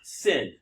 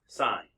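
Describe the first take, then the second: First: The vowel is short, rhyming with pin. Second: The vowel is long, rhyming with line. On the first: The speaker calls it wrong. "it's not sin" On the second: The speaker calls it right. "you still pronounce it sine"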